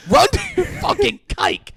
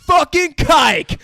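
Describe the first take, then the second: First: Very high, loud shouted slur; hammed-up furious yell; mock screaming yell. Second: Loud, high, slow shouted slur; mock angry yell. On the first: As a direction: scream it after her as she runs. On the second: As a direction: spit it after her. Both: Voicing Derek's slur.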